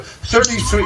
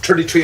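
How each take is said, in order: First: It begins with a careful TH sound. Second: It begins with a plain T sound. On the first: "I would have to sort of make a, a special effort to say the T H part" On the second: "generally it's thirty-three and a third"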